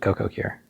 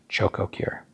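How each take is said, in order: First: The first word begins with a k sound. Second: The first word begins with a ch sound. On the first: The speaker calls it wrong. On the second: The speaker calls it right.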